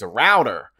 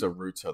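First: It is said in an American accent. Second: It is said in a British accent.

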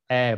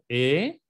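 First: The vowel is open, said with mouth wider. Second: The vowel is closed, said with spread lips. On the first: "mi boca está más abierta" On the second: "la E español está como cerrada, ven cómo sonrió"

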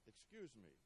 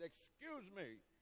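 First: It is said softly and politely. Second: It is said loudly and sternly. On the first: "I politely said" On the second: "with a stern voice and flailing arms, I loudly said"

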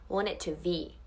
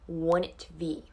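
The two takes are said the same way.

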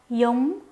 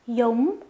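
No difference in how they are said.

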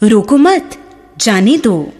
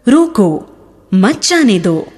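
First: A pause follows the second word. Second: A pause follows the first word. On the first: Do not stop the person; let them go. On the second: Stop the person; do not let them go.

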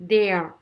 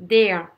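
The two takes are said the same way.

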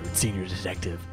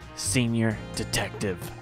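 First: It is said at normal speed. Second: It is said slowly and deliberately.

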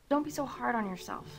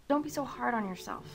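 No difference in how they are said.

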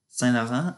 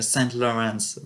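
First: Quebec English, the T in Saint is silent. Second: Standard English, the T in Saint is pronounced.

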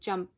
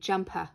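First: The word ends on a bare, breathy p. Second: An extra vowel sound follows the final p. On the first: The speaker calls it right. "I'm saying jump. You hear pretty much it's air coming through my mouth" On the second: The speaker calls it wrong. "I'm not going jumpa"

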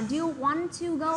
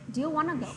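First: 'Want to' is said fully as two separate words. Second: 'Want to' is reduced and linked into 'wanna'. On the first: The speaker calls it wrong. "nghe nó rất là mất tự nhiên và rất là mất sức" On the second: The speaker calls it right. "cô đọc từ want to thì cô đọc là wanna"

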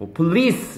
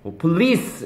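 First: The stress is on the second syllable. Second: The same.

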